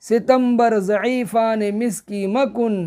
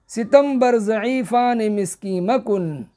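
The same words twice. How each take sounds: The two takes are said the same way.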